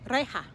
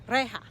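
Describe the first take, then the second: No difference in how they are said.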